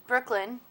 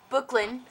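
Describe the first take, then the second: First: The name has an R sound after the B. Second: The name has no R sound after the B. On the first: The speaker calls it right. "my name is Brooklyn" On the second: The speaker calls it wrong. "not Brooklyn"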